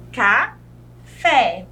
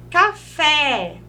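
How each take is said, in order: First: "café" split into ca, fé with a pause; syllable by syllable. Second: Said in the usual way. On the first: Shown as a demonstration. Teacher showing an oxytone word, "café" broken in two. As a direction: say "café" as two separate beats, strong fé. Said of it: "quando há uma separação de sílaba". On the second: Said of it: "foram as oxítonas".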